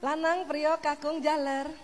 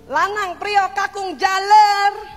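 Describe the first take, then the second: First: The names are called calmly, at normal pitch. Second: The names are called in an angry voice.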